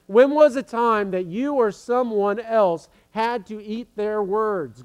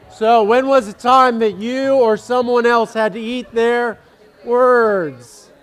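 First: Said in the usual way. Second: Higher, louder question to the hall; pitched up and loud for the whole room; louder repeat. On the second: Real, not acted. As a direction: project it to the back row.

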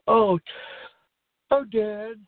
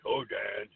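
First: Higher, louder eager call of Oh, Dad; imitating a bully sweet-talking his dad; eager son. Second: Lower, softer macho Oh, Dad; mock macho bully greeting his dad. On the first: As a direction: gush it like a buddy sucking up. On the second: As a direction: drop into a tough-guy drawl. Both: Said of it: "In his macho voice".

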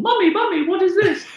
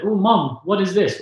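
First: Put-on squeaky six-year-old asking his mum; high little child voice. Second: Put-on childish quote. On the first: Child calling to his mum from the car seat, high and excited. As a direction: pitch right up like a small boy.

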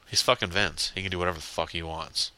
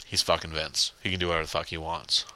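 Both takes have the same delivery.

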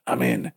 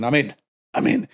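First: Low, cool movie hacker. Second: Said in the usual way. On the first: Acted. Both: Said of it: "Hacker voice".

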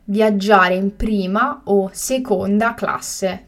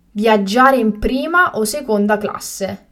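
First: Slow and carefully spaced; slow, clear repetition. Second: Said in the usual way. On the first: Shown as a demonstration. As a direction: say it again slowly for learners. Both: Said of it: "teacher repeats the word twice".

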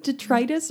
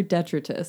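First: "detritus" said de-TRY-tis; long-i pronunciation. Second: "detritus" said DET-ri-tus; first-syllable stress pronunciation. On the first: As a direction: stress the middle of "detritus", rhyming it with "write us". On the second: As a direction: stress the start of "detritus", short i in the middle. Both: Shown as a demonstration. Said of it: "How do you say that? Is it".

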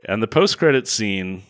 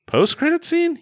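First: Said in the usual way. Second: High squeaky rising question; sudden high-pitched disbelief; surprised question. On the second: Shown as a demonstration.

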